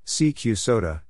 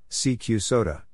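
The two takes are said the same way.

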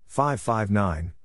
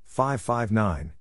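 Both takes have the same delivery.

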